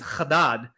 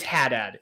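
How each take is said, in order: First: The name is said in its original Lebanese way. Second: The name sounds like English had plus dad. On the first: This is the family's true heritage name. "my correct pronunciation of my last name is Haddad" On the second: This is the version adopted to fit in America. "It's just the word had and then dad"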